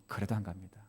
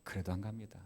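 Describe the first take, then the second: No difference in how they are said.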